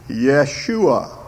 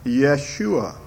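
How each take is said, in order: First: Yeshua said yeh-SHOO-ah; Yeshua, Hebrew pronunciation; Hebrew name. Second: Yeshua repeated, yeh-SHOO-ah; Hebrew name. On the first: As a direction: Yeshua with a clear y and sh, stress on shoo. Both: Shown as a demonstration. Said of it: "Do you hear how that sort of sounds like Joshua".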